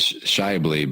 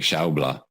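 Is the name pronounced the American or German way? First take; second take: American; German. First: The name is said with an American pronunciation. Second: The name is said with a German pronunciation. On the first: "The American pronunciation is" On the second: "but German, I believe, is like"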